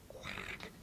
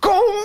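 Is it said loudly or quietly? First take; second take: quietly; loudly. First: It is said very quietly. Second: It is said very loudly.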